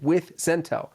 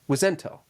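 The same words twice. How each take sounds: First: The two words are said clearly apart. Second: The two words blur into one surname-like word. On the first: The caller names the company he works for. "I have to identify myself as as having to say with Zentel" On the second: It sounds like part of the caller's surname. "they trained us to say with Zentel ... pretend like Wizentel was the last name"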